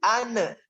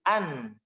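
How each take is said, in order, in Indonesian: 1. Suku kata berakhir dengan vokal pantulan. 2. Bunyi akhir ditahan tanpa pantulan. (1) "Di ane-nya nih, jangan" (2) "Cukup ditahan"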